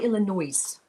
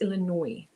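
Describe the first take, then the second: First: The final s is pronounced aloud. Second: The final s is silent. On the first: The speaker calls it wrong. "I always say Illinois" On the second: The speaker calls it right. "Silent S"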